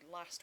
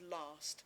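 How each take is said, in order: First: It is said with a Northern English vowel. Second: It is said with a Southern English vowel. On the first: "which is a Northern uh, English pronunciation" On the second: "which is distinctly Southern"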